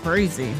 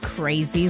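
First: It is said in a worried, warning tone. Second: It is said in an amazed, astonished tone. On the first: Something could be trouble to watch out for. "uh-oh, watch out for that winner" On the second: Something happened that is hard to believe. "you are not going to believe this"

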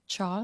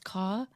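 First: The word begins with a ch sound. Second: The word begins with a k sound. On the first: The speaker calls it right. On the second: The speaker calls it wrong.

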